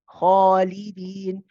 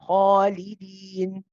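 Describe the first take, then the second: First: The long vowel sounds heavy and dark. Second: The long vowel sounds heavy and dark.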